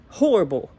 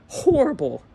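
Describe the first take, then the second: First: Said in the usual way. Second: "horrible" pitched up high and stretched; emphatic horrible. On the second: Real, not acted. Fan judging this year's defense, pitched up high in disgust.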